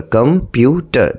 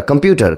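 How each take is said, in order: First: computer split slowly into কম, পিউ, টার; slow, segmented computer with a gap after each syllable. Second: Said in the usual way. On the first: Shown as a demonstration. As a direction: break computer into three separate beats. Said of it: "three syllables". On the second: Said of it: "এক ঝুঁকে যতটুকু উচ্চারণ করা যায়".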